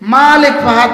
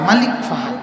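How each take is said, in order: First: The first vowel of malik is drawn out long. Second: The first vowel of malik is said short, quickly. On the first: The word means owner. The speaker calls it wrong. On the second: The word means king. The speaker calls it right.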